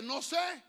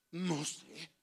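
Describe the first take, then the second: First: Said in the usual way. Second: Soft, drawn-back mock ignorance; expressive don't-know. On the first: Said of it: "pero hay gente bien expresiva". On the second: Shown as a demonstration. Preacher showing how expressive people feign ignorance, soft and loaded. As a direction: say it low and loaded with hidden meaning. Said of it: "hay gente bien expresiva, le hace".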